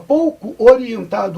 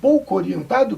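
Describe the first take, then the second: First: The two o sounds are said separately. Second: The two o sounds merge into one.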